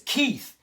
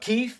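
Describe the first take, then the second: First: The name ends with a 'th' sound. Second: The name ends with an 'f' sound. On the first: The speaker calls it right. "my name is Keith. It is spelled K E I T H" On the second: The speaker calls it wrong. "He said it like Keith, like Chief Keith"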